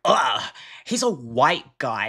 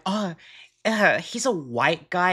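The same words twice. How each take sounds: First: Demoing the hateful way to say it; disgusted. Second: Casual, teasing "Oh" and an easy shrug; demoing the harmless way to say it; light playful. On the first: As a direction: spit it out with disdain. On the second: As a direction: say it like a harmless little joke. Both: Shown as a demonstration. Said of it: "there's a difference there".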